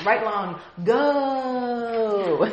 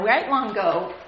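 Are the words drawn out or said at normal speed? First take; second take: drawn out; normal. First: The words are slowly stretched out. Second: The words are said at normal speed.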